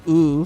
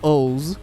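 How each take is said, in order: First: It is one long 'ooh' vowel. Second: It is said as 'ohs', ending in s. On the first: The speaker calls it wrong. "like not ooh" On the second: The speaker calls it right. "it's pronounced O's"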